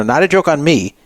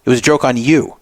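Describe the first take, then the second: First: "me" lightly stressed, falling. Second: "you" stressed as the contrast. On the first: The woman correcting the caller, stress on "me". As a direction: lean on "me" to set it against "you". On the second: The woman telling the caller it was on him, stress on "you". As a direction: land on "you", then let it fall. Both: Retold or imitated. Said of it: "No, no, no".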